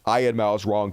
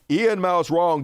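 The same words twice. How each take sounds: First: The first name begins with an 'eye' sound. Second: The first name begins with an 'ee' sound. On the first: This is the speaker's mocking version of the name. "way funner to say it that way" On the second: This is how the man's own name is said. "I know you pronounce his name Ian"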